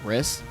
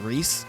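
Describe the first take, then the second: First: The vowel is short, as in 'miss'. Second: The vowel is long, as in 'piece'. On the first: The speaker calls it wrong. "like Riss" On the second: The speaker calls it right. "but it's Reese"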